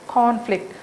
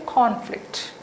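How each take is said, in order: Both takes have the same delivery.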